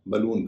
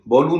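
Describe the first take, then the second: First: The first vowel is a short 'uh'. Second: The first vowel sounds like 'aw'. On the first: The speaker calls it right. "बलून कहते हैं" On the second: The speaker calls it wrong. "उसे बॉलून नहीं कहते"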